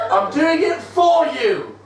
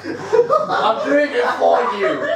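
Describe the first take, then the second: First: Shouted, higher and slow; hammed-up villain shout. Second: Dramatic villain. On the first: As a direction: bellow it like a mad scientist. Villain shouts his motive. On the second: Pretend. Villain declares his dream.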